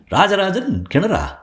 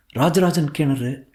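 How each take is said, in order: First: "Rajarajan கிணறா" high, slow and questioning; baffled, high "Rajarajan கிணறா?"; puzzled question. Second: "Rajarajan கிணறு" slow, as a statement; matter-of-fact, drawn-out "Rajarajan கிணறு"; stating the title. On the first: He queries the odd title. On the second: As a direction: answer "Rajarajan கிணறு" evenly and slowly. She answers with the title. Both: Acted.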